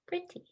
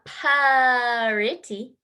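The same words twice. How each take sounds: First: The p sound is made softly. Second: The p sound is made forcefully. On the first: The speaker calls it right. "It's a soft sound through your lips" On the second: The speaker calls it wrong. "It's not pretty"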